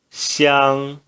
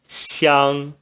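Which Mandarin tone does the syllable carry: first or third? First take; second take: first tone; first tone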